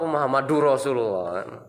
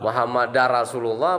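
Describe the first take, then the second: First: Muhammad is followed by a 'u' vowel. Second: Muhammad is followed by an 'a' vowel. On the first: "Ada nek du" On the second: "ada nek da"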